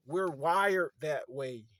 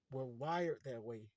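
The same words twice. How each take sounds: First: "wired" stretched out, loud and slow; emphatic declaration. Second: Said in the usual way. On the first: Real, not acted. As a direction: punch "wired that way" loudly, drawing it out. Emphatic first take, then repeated lower.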